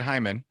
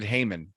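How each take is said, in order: First: The first syllable sounds like 'high'. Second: The first syllable does not sound like 'high'.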